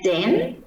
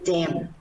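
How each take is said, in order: First: The word ends with an n sound. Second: The word ends with an m sound. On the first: The speaker calls it right. "pronouncing final n is m" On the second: The speaker calls it wrong. "sometimes the student just mispronounce as m"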